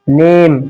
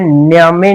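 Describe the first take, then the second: First: The final e is left silent. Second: The final e is sounded as a vowel. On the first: The speaker calls it right. "ई को silent करते हैं" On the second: The speaker calls it wrong. "इसे न्यामे नहीं"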